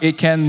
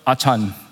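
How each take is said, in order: First: The name is said in an English-like way. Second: The name is said like a Cantonese name. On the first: The speaker calls it right. "it's pronounced Achan" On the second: The speaker calls it wrong.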